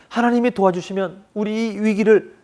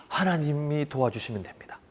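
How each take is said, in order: First: Said in the usual way. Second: Soft, hushed words of faith; quiet trust. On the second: Retold or imitated. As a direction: say it softly as a believer. People's new trust voiced. (조용하고 나직한 믿음의 고백)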